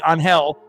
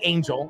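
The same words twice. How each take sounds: First: The name is said with a Spanish pronunciation. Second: The name is said with an English pronunciation. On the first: The speaker calls it right. "It'll be Angel" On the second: The speaker calls it wrong. "it's probably not going to be Angel"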